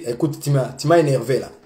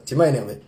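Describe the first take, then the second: First: Said in the usual way. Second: Calm gentle telling. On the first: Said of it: "Je veux lui dire". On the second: Shown as a demonstration. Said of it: "Je vais lui dire ça comme ça".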